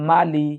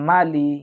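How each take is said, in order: Both takes have the same delivery.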